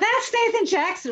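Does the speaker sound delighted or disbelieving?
delighted. It sounds like a thrilled, excited exclamation. Meeting the person is exciting.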